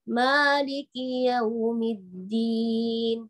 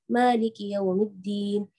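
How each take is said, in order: First: It is recited very slowly and drawn out. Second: It is recited quickly at a fast pace. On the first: "yang paling lambat ya" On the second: "yang paling cepat ini"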